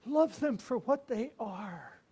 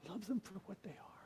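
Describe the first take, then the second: First: Slow, earnest, pressing; slow tender counsel. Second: Soft whispered echo of the advice; whispered repeat. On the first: Old priest counselling the young one, slow and tender. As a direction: lay it on him slowly and kindly. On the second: Old priest repeating his advice to Mark, whispered. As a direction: breathe the lesson again, almost silent. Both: Retold or imitated.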